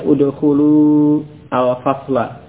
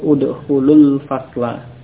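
First: The words are said separately, keeping the final vowel. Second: The words run together, joining straight into the l. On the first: "kalau terpisah" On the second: "Kalau bersambung"

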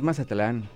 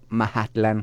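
First: The middle consonant sounds like an s. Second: The middle consonant sounds like an h. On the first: The speaker calls it wrong. "Pero no es Mazatlán, estás equivocado" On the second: The speaker calls it right. "se pronuncia Mahatlán"

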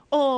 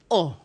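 First: It is said in an ordinary speaking voice. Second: It is said low and deep from the chest. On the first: "個哦咩哦咪普通聲出咯" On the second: "就要低沉啲喺我哋嘅腔喉嚨下格下格聚氣發聲。個哦就變哦"

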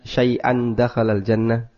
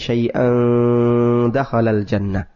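First: The n is pronounced clearly and fully. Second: The n is hidden in a nasal sound. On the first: It is read as hadith, not Quran. "tidak ada ikhfa. ... sama seperti membaca yang terang" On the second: It is recited as Quran. "Kalau ini Al-Quran saya baca, ... Ikhfa"

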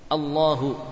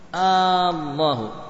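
First: The first vowel is short. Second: The first vowel is drawn out long. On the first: It states something about God. "Allah adalah" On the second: It asks a question about God. "apakah Allah?"

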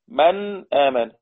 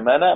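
First: The glottal stop is pronounced after the first word. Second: The glottal stop is dropped and its vowel moves back. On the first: "نون ساكنة بعدها همزة" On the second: "وما فيش همزة خالص احذفها تبقى منا"

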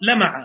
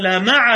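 First: The stress falls on the first syllable. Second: The stress falls on the second syllable. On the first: Something shone. The speaker calls it wrong. "فتكون هذه من باب اللمعان" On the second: God is with the doers of good. The speaker calls it right. "هكذا"

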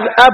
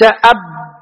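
First: The b sound is short and light. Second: The b sound is doubled and held. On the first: The speaker calls it right. "بتخفيف الباء" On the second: The speaker calls it wrong. "وليس أب"

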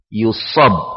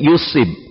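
First: The middle syllable has the vowel 'a'. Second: The middle syllable has the vowel 'i'. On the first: "dengan memfathah huruf sad" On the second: "mengkasrah huruf sad menjadi yusib"

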